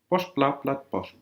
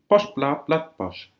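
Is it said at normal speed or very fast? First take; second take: very fast; normal speed. First: It is said as fast as possible. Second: It is said at a normal, careful speed.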